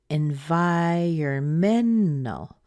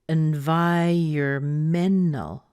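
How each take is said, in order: The two takes are said the same way.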